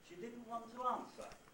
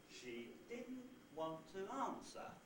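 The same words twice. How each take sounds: First: The word 'want' carries no pitch accent. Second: The pitch steps down onto an accented 'want'. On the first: "we've got two accent groups. One beginning on the syllable did, and one beginning on the syllable arms" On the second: "now want is lower than the second syllable of didn't, there's a step down, that means that now want is accented as well"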